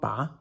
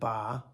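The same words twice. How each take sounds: First: The syllable has a rising second tone. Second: The syllable has a dipping third tone. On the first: It means to pull out. "second tone ba" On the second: It means a target. "third tone ba"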